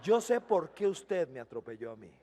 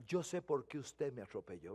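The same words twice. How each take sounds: First: Laughing retelling. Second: Soft knowing remark. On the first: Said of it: "Vea si soy pandereta yo". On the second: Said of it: "le digo". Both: Retold or imitated.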